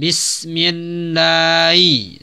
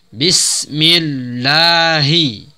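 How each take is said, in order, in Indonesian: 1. Bunyi h hampir tidak diucapkan. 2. Bunyi h diucapkan dengan jelas. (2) "ha pada lafaz Allah dijelaskan bunyinya"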